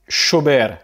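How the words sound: The double L sounds like 'sh'. This is how it is said in Argentina. "tu vas prononcer comme ça"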